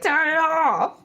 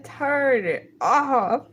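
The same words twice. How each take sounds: First: Laughing while blurting it out; cracking up mid-line. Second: Slow pleading drawl; slow drawn out plea. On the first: Laughing at a song. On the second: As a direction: stretch each word slowly. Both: Real, not acted.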